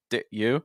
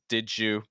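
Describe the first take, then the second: First: The d is held without release before you. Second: The d and y merge into a j sound. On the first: "with kind of a held sound" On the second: "that d sound, because it's followed by a y, becomes like a j"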